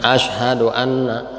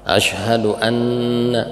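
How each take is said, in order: First: The nasal n sound is cut short. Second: The nasal n sound is held long. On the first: The speaker calls it wrong. "jangan asyhadu anna" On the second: The speaker calls it right.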